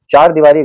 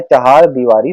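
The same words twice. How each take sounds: First: चार दीवारी said as chaar deewaari, the wrong form. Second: चहार दीवारी said slowly as chahaar deewaari, h sounded; correct form. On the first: Teacher showing exam students the wrong form, चार दीवारी said as chaar. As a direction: give the common wrong chaar without the h. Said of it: "गलत होता है". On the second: Teacher giving students the correct form, चहार with h. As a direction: stress चहार with a clear h, said carefully. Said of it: "सही है". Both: Shown as a demonstration.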